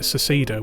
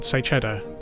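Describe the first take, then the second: First: The middle consonant sounds like 's'. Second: The middle consonant sounds like 'ch'. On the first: The speaker calls it wrong. "which is wrong" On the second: The speaker calls it right. "as in say cheese"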